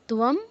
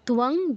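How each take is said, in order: First: The word ends with a closed m sound. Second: The word ends with a nasal ng sound. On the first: "ন ত্বম বা ত্বং যেটাই বলেন দুটোই সঠিক" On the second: "ন ত্বম বা ত্বং যেটাই বলেন দুটোই সঠিক"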